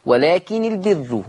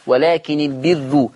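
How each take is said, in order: First: Slow ولكن البر with doubled nun, ra open; Hafs reading. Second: Slow ولكن البر with light nun and thin, u-ending ra; Warsh reading. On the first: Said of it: "حفص كان مشدد النون". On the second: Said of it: "بقت مضمومة ومرققة". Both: Shown as a demonstration.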